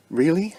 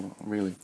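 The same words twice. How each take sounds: First: Bright and rising, caring; open interest. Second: Low, flat and quiet, barely caring; flat disinterest. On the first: High-vibration person answering a friend's news, open and rising. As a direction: ask "Really?" higher, open and engaged. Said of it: "it's very open". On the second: Low-vibration person answering a friend's breakup, flat and quiet. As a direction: say "Oh, really?" closed off, with no interest. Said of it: "if you were in low vibration". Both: Shown as a demonstration.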